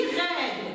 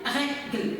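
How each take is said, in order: First: Règle with a wide open, drawn-out "è". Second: Règle said with a closed "é", as "régle"; wrong closed E. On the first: Teacher modelling règle for pupils, mouth open on the E. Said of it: "J'ouvre la bouche en prononçant le E". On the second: Teacher showing pupils the mistake, règle with a closed E. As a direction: mispronounce règle by closing the vowel to "é". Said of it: "je ne peux pas dire règle". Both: Shown as a demonstration.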